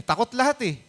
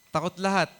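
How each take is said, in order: First: "takot lahat eh" lifted high, with "lahat" pushed up; emphatic. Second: Said in the usual way. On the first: Acted. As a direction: raise "lahat" high to drive home the fear. Preacher stresses everyone's fear. (mataas at mariing "takot lahat eh")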